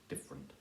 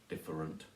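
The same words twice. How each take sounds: First: The word is said with two syllables. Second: The word is said with three syllables.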